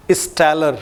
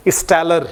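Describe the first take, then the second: No difference in how they are said.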